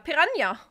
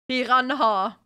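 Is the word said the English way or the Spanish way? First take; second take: Spanish; English. First: It is said with a Spanish ñ sound. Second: It is said with an English pronunciation. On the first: The speaker calls it right. "In Spanish, we pronounce it like that too... There's an N squiggle line" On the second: The speaker calls it wrong. "the English people always have to go like"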